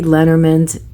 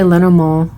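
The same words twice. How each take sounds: First: The name is pronounced the German way. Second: The name is pronounced the French way. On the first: "more of the German way because I'm German" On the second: "you can say Lenormand. That's good"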